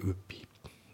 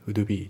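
First: The d of would is dropped. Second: The d of would is clearly pronounced. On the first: The speaker calls it right. "ウドのD がね、抜けますね。" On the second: The speaker calls it wrong. "ウドビーじゃなくて"

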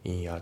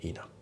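First: The two words are said separately. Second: The n links into the following a. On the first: The speaker calls it wrong. "インアじゃなくて" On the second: The speaker calls it right. "リンキングでイナ"

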